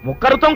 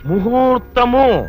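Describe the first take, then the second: First: The word is pronounced mukharutham, with a kh sound. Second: The word is pronounced muhurtamu, with an h sound. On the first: The speaker calls it wrong. "కాదు daddy" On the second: The speaker calls it right. "కింద ఒత్తులు తీసేసి ప్రాణాలు తీసేస్తున్నావు"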